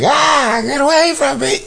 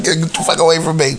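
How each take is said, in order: First: High, panicked "get away from me"; scared yelp. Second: Quick, higher "get the fuck away from me"; mock yell at the bear. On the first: Retold or imitated. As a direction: squeal it like a terrified man. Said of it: "the dude was like". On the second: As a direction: shoo the bear off, fast. Imagined yelling at the bear.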